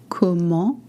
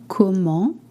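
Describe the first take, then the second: No difference in how they are said.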